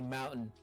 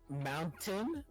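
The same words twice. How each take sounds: First: The middle T is dropped. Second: The middle T is clearly pronounced. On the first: "we don't say their C's, T's" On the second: "instead of mount mountain"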